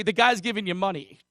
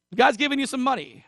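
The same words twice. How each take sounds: First: Said in the usual way. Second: Sarcastic lift on guy's; ironic higher repeat. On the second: Shown as a demonstration. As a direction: pitch jumps way up on the repeat. Repeats line for emphasis.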